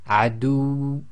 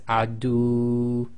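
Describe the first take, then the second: First: The final waw sound is short and emphasized. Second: The final waw sound is drawn out long. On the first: The speaker calls it right. "cut this short to a length of one and overemphasize the waw" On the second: The speaker calls it wrong. "you don't want to read it as adu"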